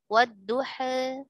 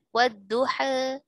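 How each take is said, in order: No difference in how they are said.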